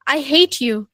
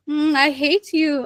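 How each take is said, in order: First: A mild, hostile "I hate you"; negative tone. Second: A teasing, amused "Hmm, I hate you"; laughing. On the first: Teacher demoing a negative caller to the class, mildly hostile. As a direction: say it like you mean it, coldly. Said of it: "मैं बहुत negative tone में बात कर रही हूँ". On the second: Teacher showing the class a joking tone, lightly amused. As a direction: say it jokingly, not meaning it. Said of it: "so you know for a fact I'm laughing". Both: Shown as a demonstration.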